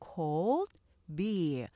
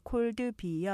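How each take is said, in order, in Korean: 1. 두 음절로만 말해요. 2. 추가 모음이 붙어서 두 음절보다 많아요. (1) "음절은 이름절이에요" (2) "이렇게 cold beer 하게 되면 콩글리시 발음이 되는 거고요"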